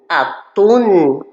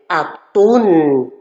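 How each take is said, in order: Both takes have the same delivery.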